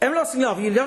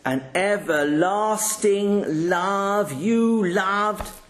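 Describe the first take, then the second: First: The phrase is read very fast and rushed. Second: The phrase is read very slowly and drawn out. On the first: The words are barely said and not really read. "I could do it quicker" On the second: The reading sounds silly and unnatural. "sounds silly. You don't read like that either"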